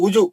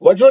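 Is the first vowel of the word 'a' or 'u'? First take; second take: u; a. First: The first vowel is 'u' with rounded lips. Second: The first vowel is an open 'a'. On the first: The speaker calls it right. "वुजू वुजू पेश।" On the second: The speaker calls it wrong. "वजू नहीं"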